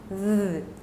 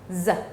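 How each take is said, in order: First: It is a voiced 'th' between the teeth. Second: It is a buzzing 'z' sound. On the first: This is the formal Arabic pronunciation. "in formal Arabic it's pronounced th, ... with vibration" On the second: This is the spoken urban Arabic pronunciation. "in urban Arabic ... became uh, um, the pronunciation z"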